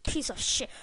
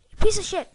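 First: Said in the usual way. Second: High, loud curse at the screen; angry curse. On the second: Real, not acted. Gamer curses the game in a high, loud outburst. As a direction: spit it at the game.

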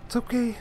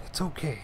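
First: "It's okay" lifted high, with "okay" on top; self-soothing. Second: Soft reassurance. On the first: Player consoling herself after a setback, high-pitched self-comfort. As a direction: chirp "It's okay" high to cheer yourself up. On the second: Player consoling herself after a setback, soft calm reassurance. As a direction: settle into a soft "It's okay". Soothing self after frustration. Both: Real, not acted.

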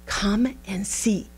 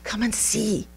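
First: "Come and see" said slowly, each word weighted; slow emphatic repeat. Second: Said in the usual way. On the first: Acted. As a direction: draw out "Come and see" as an invitation.

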